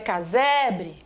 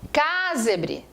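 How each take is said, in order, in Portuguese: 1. A tônica cai na sílaba do meio. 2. A tônica não cai na sílaba do meio. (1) "quando você segura e dá certo, a palavra é casebre" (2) "Se eu falasse casebre ... a palavra não é casebre"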